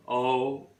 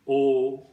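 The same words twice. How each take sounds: First: "o" as a British glide from schwa to oo; British diphthong. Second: "o" as a rounded American O, louder and held; American variant. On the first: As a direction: say "o" gliding, RP style, as in "go". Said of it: "diphthong is o". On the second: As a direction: say "o" the American way, starting with rounded lips. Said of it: "in American English it is". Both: Shown as a demonstration.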